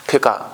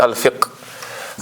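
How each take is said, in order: First: It ends with an added vowel 'a'. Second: It ends on a final 'qh' consonant. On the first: The speaker calls it wrong. "जिस तरह हम उसको कहते हैं फ़िका" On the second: The speaker calls it right. "हालांकि वो है अल फ़िक़्हु या अल फ़िक़्ह"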